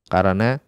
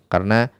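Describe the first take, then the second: The two takes are said the same way.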